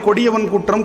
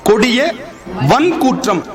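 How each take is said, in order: First: The first word is said joined without a break. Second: The first word is split with a small break. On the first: The speaker calls it wrong. "நம்ம என்ன பண்ணிடுறோம்?" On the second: The speaker calls it right. "பிரிச்சு படிக்கணும்"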